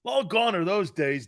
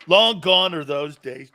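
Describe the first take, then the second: First: Said in the usual way. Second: LONG GONE said slowly and louder; emphatic slow repeat. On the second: Shown as a demonstration. Host repeating his verdict to listeners, slowly and louder. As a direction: lean on "Long gone are those days." with weight.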